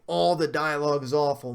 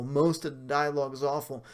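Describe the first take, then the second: First: "All" hit hard and a bit louder; stressing "All" in "All the dialogue is awful". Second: "most" stressed, falling; stressing "most" in "most of the dialogue is awful". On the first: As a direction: lean on "All" as if all of it. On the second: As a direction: lean on "most" to correct the claim. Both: Shown as a demonstration. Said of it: "the entire dialogue is not so awful to where you say".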